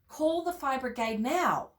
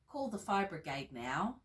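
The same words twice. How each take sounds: First: It is said in an urgent, forceful tone. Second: It is said in a calm, plain tone. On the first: The situation is urgent. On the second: The situation is not urgent.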